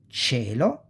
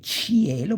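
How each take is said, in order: First: The i is silent, blended into the ch. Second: The i is sounded as a separate vowel. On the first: The speaker calls it right. "but you say cielo" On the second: The speaker calls it wrong. "you don't say cielo"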